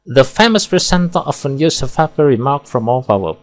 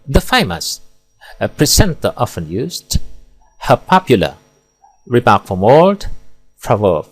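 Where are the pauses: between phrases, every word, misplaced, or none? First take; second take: none; misplaced. First: It is read straight through without any pauses. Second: There are pauses inside phrases, such as after 'famous'. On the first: "Kita baca tanpa pemenggalan, akan terdengar monoton dan membosankan" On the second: "di sini salah meletakkan jeda sehingga rancu dan tidak bermakna"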